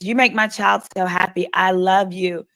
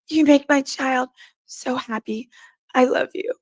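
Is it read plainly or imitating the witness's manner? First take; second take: plainly; imitating. First: It is read plainly in the speaker's own voice. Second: It imitates how the witness said it on the stand.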